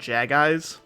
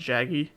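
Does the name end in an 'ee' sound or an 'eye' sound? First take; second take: eye; ee. First: The name ends in an 'eye' sound. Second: The name ends in an 'ee' sound. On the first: The speaker calls it wrong. "I used to call them Jag Eyes back then" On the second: The speaker calls it right. "instead of Jaggy"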